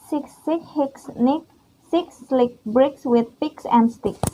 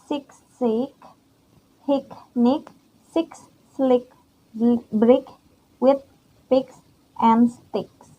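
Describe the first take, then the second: First: It is said fast. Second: It is said at normal speed.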